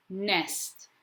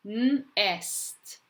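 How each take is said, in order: First: Said in the usual way. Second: N held apart from "est", raised pitch; sounding out. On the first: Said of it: "you're going to read the word". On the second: Shown as a demonstration. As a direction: say N, then est. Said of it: "say the letters as you're writing".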